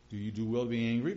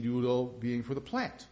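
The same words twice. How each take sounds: First: "angry" leaned on, rising at the end; stress on angry. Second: "plant" leaned on with a questioning rise; stress on plant. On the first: God asking Jonah the earlier question, stress on "angry". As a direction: ask it landing on "angry". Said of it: "same question he had earlier". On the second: God pressing Jonah about the plant, stress on "plant". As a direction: lift the new word "plant". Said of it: "But now he's saying". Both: Shown as a demonstration.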